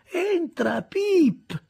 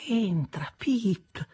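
First: High, loud call through the door. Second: High, hushed murmur trailing into a whisper. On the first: Miss Havisham calls Pip into her room, high and loud. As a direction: summon him in from afar. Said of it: "mormorò ancora". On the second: Miss Havisham murmurs to Pip without raising her eyes, hushed. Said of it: "mormorò ancora la signorina Havisham". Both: Acted.

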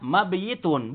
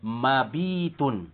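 First: Mabiyitun with the yi sounded separately; incorrect uncontracted reading. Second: Mabitun slow, with a long bii; contracted reading. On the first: Teacher warning against a reading, mabiyitun with separate yi. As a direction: keep a y glide inside mabiyitun. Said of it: "bukan bacanya mabiyitun". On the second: Teacher giving the resulting form, slow mabitun with long ii. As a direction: draw out the bii in mabitun, dropping the y. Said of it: "Berarti menjadi". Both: Shown as a demonstration.

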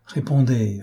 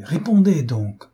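First: Said in the usual way. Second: Higher, slower, more pressing repeat; insistent plea. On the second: A narrator's reading. Old gunner begs the governess to answer, anxious and pressing. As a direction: lean on répondez as anxiety boils over. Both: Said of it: "vivement et avec anxiété".

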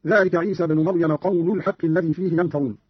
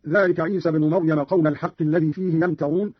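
First: "قول" ending in u, qawlu; damma on lam. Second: Said in the usual way. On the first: Shown as a demonstration. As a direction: recite "قول" as qawlu-l, linked to "الحق". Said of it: "قرأ قالون برفع اللام من قول". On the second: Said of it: "برفع اللام من قول".

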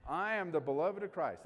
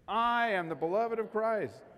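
First: Said in the usual way. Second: Louder, slow, every word weighted: I am the beloved of Christ; emphatic declaration. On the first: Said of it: "Let me say that out loud". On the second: Shown as a demonstration. Pastor leading the congregation in a declaration, louder and slow. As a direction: proclaim I am the beloved of Christ slowly and fully. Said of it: "Let's say it one more time. Look at me".

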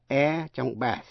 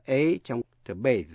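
First: "bath" with an open short a, like "eh" widened; short A vowel. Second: "bathe" with an ay vowel; long A vowel. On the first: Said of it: "đọc là E trong bath". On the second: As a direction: say the a of "bathe" as the letter name A. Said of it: "đọc là A trong to bathe". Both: Shown as a demonstration.

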